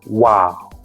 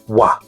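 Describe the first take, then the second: First: The syllable ends with an added u glide. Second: The syllable ends cleanly and short, without glide. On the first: The speaker calls it wrong. "by adding extra u at the end" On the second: The speaker calls it right. "wa is clean and short"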